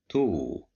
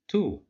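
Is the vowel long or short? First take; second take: long; short. First: The vowel is drawn out long. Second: The vowel is short and clipped. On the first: "But if we add waw" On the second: "controlled by dhamma"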